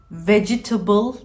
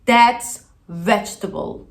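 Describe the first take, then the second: First: Vegetable with all four syllables, ve-ge-ta-ble; wrong vegetable. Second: That's vegetable as vej-tuh-bl, three syllables; correct vegetable. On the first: Teacher mocks the four-syllable vegetable. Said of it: "vegetable demiyoruz". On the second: Teacher models vegetable, three syllables. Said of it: "Çok fazla insan vegetable diyor". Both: Shown as a demonstration.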